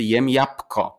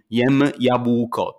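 First: Jabłko said casually as "japko"; natural jabłko, quicker, sounding like japko; everyday reduced pronunciation. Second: Jabłko slow, with every letter sounded, b and ł included; drawn-out, theoretical jabłko with a clear voiced b and ł; overcareful pronunciation. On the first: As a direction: drop the ł in jabłko and turn b to p. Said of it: "b nam się zmienia na p". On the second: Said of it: "ale nikt nie mówi". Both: Shown as a demonstration.

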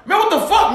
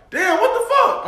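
First: High, exasperated outburst; changed, angrier tone. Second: High-pitched exasperation, not shouted; mild frustration. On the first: Fed up with the car at the ATM, angrier. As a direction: lose patience, pitch jumping up. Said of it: "Now my tone has changed". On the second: Muttering at the car ahead at the ATM, frustrated. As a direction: complain in a high voice, holding back volume. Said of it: "I want them to hit my frustration". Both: Acted.

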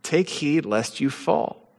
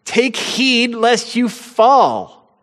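First: Softer, slowed, inward restatement; hushed reread of the verse; quiet repetition. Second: Higher and very slow, each word weighted; drawn-out ringing scripture warning; solemn warning. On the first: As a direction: let the warning sink in softly. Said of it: "First Corinthians". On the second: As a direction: lean on every word like a commandment. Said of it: "we have as a commandment". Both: Acted.

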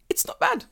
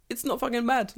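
First: High airy whisper of "it's not bad"; whispered aside. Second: "It's not fucking bad" with "bad" punched high and falling; emphatic insistence. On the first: Insisting Japan's police aren't bad, in a whisper. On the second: Insisting Japan's police aren't bad, emphatic. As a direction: lean hard on "fucking bad". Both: Real, not acted.

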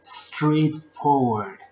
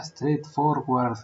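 First: Straightforward said very slowly, each sound drawn out; teacher's model pronunciation. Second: Straightforward said with a learner's heavy Spanish sounds; mangled pronunciation. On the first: Teachers modeling the word Straightforward, drawn out very slowly. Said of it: "los teachers siempre me dicen". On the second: The speaker as a learner mangling straightforward. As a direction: botch straightforward like a struggling learner. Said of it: "yo nunca podía decir el straightforward". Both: Retold or imitated.

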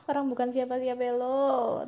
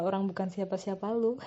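First: Laughing, higher mocking repeat. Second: Said in the usual way. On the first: Real, not acted. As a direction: laugh it out teasingly. (sambil tertawa mengejek)

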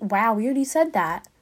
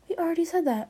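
First: Said in the usual way. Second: Whispered aside, unvoiced; hushed whispered repeat. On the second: Real, not acted. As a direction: breathe it out as a secret. Whispered repeat of own line.

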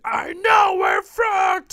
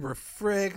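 First: Drawn-out, high-pitched mock-angry yell; pissed-off shout. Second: Said in the usual way. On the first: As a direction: act out an exasperated outburst at full volume. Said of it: "he's really pissed off". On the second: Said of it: "and Jughead's like".

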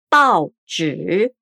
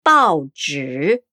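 First: Pao zhi again, pao rising; Mandarin baozhi repeated. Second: Pao zhi low, with a rising pao; Mandarin baozhi. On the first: Teacher repeats newspaper in Mandarin for the learner. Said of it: "o jornal". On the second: Teacher models the Chinese word for newspaper, low and careful. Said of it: "Pao, de jornal". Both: Shown as a demonstration.

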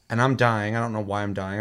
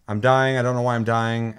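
First: Said in the usual way. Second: I'm dying, pushed out louder in disbelief; mock panic, voice lifted and louder; louder exasperated repeat. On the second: Gamer retelling his deaths, louder exasperated repeat.

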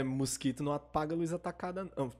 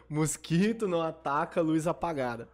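First: Tipsy, slurring the words. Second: Said in the usual way. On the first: Real, not acted. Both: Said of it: "eu tô bêbado já".

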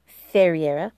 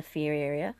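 First: "Ferreira" said fe-ree-ERR-a, corrected; corrected name. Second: "Ferreira" said as fee-RERR-ee-a; mispronounced name. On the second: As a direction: misread "Ferreira" with an ee sound first. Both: Shown as a demonstration.

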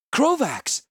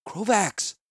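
First: High, loud anguished cry of his name. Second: A gentler call, still high and a bit loud; more gently. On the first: Healer cries out to thrashing Krovax, loud and high. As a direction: call out to stop a friend in pain. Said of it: "I cried". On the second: Healer calls Krovax again, trying to be gentler. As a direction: soften the call but keep it reaching him. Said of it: "I said more gently". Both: A narrator's reading.

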